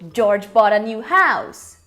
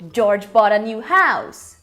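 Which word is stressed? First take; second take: house; house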